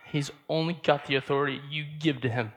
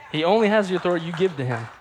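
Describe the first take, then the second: First: Said in the usual way. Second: Louder, fast, laughing; emphatic laughing repeat. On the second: Real, not acted. Preacher repeats to the church, louder, fast and laughing. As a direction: drive it home with a laugh. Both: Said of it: "repeats the point".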